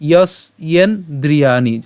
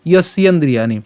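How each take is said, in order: First: "যস্যেন্দ্রিয়াণি" slowly, part by part; "যস্যেন্দ্রিয়াণি" stretched with gaps for a learner; broken into parts. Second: "যস্যেন্দ্রিয়াণি" whole, without a break; "যস্যেন্দ্রিয়াণি" in one connected, unhurried piece; said as one word. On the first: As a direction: split "যস্যেন্দ্রিয়াণি" as yos, yen, dri-yaa-ni. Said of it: "আমরা এটা সম্পূর্ণটা একসাথে উচ্চারণ করব". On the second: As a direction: run all of "যস্যেন্দ্রিয়াণি" together. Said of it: "সম্পূর্ণটা একসাথে উচ্চারণ করব". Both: Shown as a demonstration.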